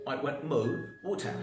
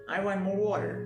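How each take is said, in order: First: It is said in a British accent. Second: It is said in an American accent.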